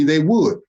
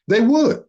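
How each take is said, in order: First: Said in the usual way. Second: Pitched higher, rising, insistent; emphatic high repeat. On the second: Real, not acted. Warning his enemies, a higher insistent echo. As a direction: throw it up high in disbelief.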